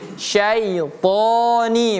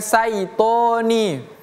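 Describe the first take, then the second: First: The word begins with an sh sound. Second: The word begins with a plain s sound. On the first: The speaker calls it right. "itu pakai shin" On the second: The speaker calls it wrong. "bukan saitoni"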